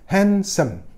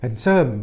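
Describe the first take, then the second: First: The stress is on the first syllable. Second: The stress is on the second syllable. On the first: The speaker calls it right. "tekanan pada suku kata pertama kan" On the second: The speaker calls it wrong. "kalau baca bukan handsome, bukan gitu kan"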